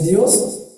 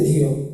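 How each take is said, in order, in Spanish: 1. La palabra termina con un sonido s. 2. La palabra termina sin ningún sonido s.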